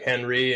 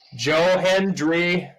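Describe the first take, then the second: First: The name is said without the d sound. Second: The name is said with a clear d sound. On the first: The speaker calls it wrong. "It almost sounded like I said Henry" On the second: The speaker calls it right. "let me pronounce that better"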